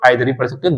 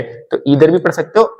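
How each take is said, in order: First: आइदर said with an eye sound at the start; आइदर with an eye diphthong first; आइदर pronunciation. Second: ईदर said with a long ee at the start; ईदर with a long ee first vowel; ईदर pronunciation. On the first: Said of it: "पहले बहुत लोग आइदर". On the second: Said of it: "कुछ लोग ईदर बोलने लगे". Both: Shown as a demonstration.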